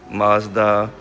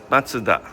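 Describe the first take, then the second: First: It is said with an American pronunciation. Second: It is said with a Japanese pronunciation. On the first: "in the U S you guys pronounce Mazda" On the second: "here in Japan we pronounce Matsuda"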